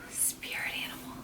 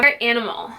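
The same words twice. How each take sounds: First: Voiceless whisper, very soft; hushed, breathy whisper to oneself. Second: Said in the usual way. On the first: Real, not acted. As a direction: whisper it under your breath. Repeats the question in a whisper.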